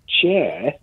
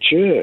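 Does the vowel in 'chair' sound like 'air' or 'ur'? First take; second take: air; ur. First: The vowel sounds like the 'air' sound. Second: The vowel sounds like the 'ur' sound. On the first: "instead of saying chair" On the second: "I say chair"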